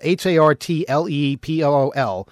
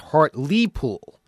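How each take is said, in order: First: The middle syllable has no long 'ee' vowel. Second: The middle syllable has a long 'ee' vowel. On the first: The speaker calls it wrong. "I was saying Hartlepool" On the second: The speaker calls it right. "is pronounced Hartlepool. As if there were two E's there"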